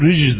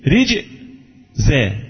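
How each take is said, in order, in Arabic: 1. يُسحب صوت j داخل صوت z. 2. صوت j منفصل عن صوت z بوضوح. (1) "ازاي بتسحب الجيم كده بالصفات بتاعتها" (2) "خلاص فصلت الجيم كمخرج وصفات عن ازاي"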